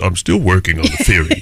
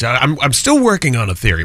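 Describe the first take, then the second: First: It is said in an imitated, put-on voice. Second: It is said in the speaker's natural voice.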